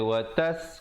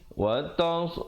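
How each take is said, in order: First: The s is a light, plain sound. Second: The s is a heavy, emphatic sound. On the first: The speaker calls it wrong. "jangan baca watas. Kalau watas jadi huruf sin" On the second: The speaker calls it right. "sad ya"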